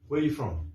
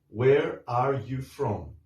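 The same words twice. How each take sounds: First: The words are shortened and run together. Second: Each word is said fully and separately. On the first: "It sounds more like, ... Because there are contractions" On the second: "usually it doesn't sound like that"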